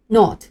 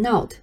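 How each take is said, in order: First: The vowel is a short rounded o. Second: The vowel is not a short rounded o. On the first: The speaker calls it right. "发音的时候，嘴型和我们之前学过的o 是一样的。但是这个音并没有长音符号，所以它的发音就比较短促。" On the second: The speaker calls it wrong. "千万不要念成not"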